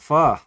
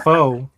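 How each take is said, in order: First: The word does not rhyme with 'foe'. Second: The word rhymes with 'foe'. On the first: The speaker calls it right. "That's the correct way to say it" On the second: The speaker calls it wrong. "It ain't pho. Sound like mister T"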